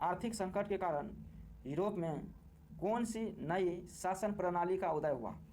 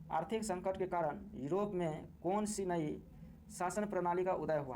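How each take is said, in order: The two takes are said the same way.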